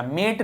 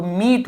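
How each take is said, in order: First: मेट with an "eh" vowel in place of "ee"; wrong vowel. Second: मीट with a long "ee" vowel; long E sound. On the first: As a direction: say मेट as "met", the mistaken reading. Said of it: "मेट नहीं हुआ". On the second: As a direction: say मीट as "meet", holding the "ee". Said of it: "ई का sound ई है तो मीट हो गया". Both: Shown as a demonstration.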